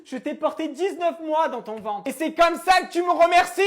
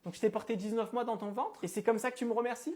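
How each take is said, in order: First: High, loud theatrical reproach; dramatic shout. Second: Said in the usual way. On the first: Acted. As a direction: wail it like a tragic mother. Repeat shouted with music.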